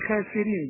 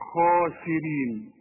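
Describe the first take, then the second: First: The kh is light, with an open vowel. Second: The kh is heavy, with a rounded vowel. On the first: The speaker calls it wrong. "ما تقولش" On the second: The speaker calls it right. "كل قه في القران ما دام مفتوحه"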